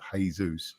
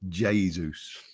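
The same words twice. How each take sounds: First: The name is said with a Spanish pronunciation. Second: The name is said without a Spanish pronunciation. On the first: This is the familiar way people usually say it. The speaker calls it wrong. "we're used to the Spanish sort of Jesus" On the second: This is how the player himself says his name. The speaker calls it right. "pronounced it Jesus"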